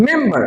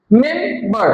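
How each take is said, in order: First: Said in the usual way. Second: মেম্বার as MEM, pause, BAR; broken into syllables. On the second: Shown as a demonstration. Teacher counts parts for class, মেম্বার in two syllables. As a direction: split মেম্বার into two drawn-out beats. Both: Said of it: "দুইবার উচ্চারণ করতে হয়".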